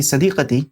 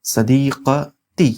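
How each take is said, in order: First: Said in the usual way. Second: Very slow, broken-up sadiqati; syllable by syllable. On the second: Shown as a demonstration. Teacher introducing the word for female friend, syllable by syllable. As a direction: sound out sadiqati in separate pieces.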